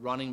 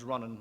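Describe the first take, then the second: First: The word is said with its full ending. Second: The word is said with its ending dropped.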